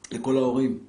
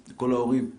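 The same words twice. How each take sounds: The two takes are said the same way.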